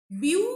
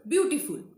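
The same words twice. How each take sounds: First: "Beautiful" in three parts, a raised, loud "beau", then pauses; syllable by syllable. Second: Said in the usual way. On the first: Shown as a demonstration. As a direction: break "Beautiful" into beau... ti... ful. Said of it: "Three syllable is there". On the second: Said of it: "we are pronouncing at a stretch".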